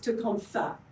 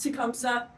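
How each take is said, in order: First: The name is said with a th sound. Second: The name is said with an s sound. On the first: The speaker calls it right. "the correct pronunciation of Tecumseh is Tecumseh, with the th at the end" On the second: The speaker calls it wrong. "we've all been told it's Tecumseh"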